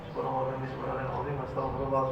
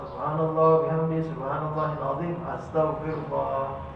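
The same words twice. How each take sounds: First: It is recited quickly and run together. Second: It is recited slowly and drawn out.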